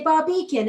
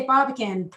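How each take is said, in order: First: "Barbican" said the English way; English pronunciation. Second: "Barbican" said the American way; American pronunciation. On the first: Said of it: "the English say Barbican". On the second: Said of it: "the Americans say Barbican". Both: Shown as a demonstration.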